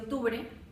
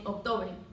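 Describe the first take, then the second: First: The vowels sound like standard o and e. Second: Some vowels shift toward i and u. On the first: The standard form. "al momento de mencionar el mes de octubre" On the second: Andean highland speakers say it this way. "dicen octubre"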